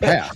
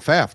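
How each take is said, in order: First: The name starts with a plain p sound. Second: The name starts with a pf sound. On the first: The speaker calls it right. "It's Paff" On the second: The speaker calls it wrong. "I've been saying Pfaff this whole time"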